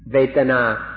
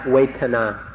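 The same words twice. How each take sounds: First: The word has its Pali pronunciation. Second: The word has its Thai pronunciation.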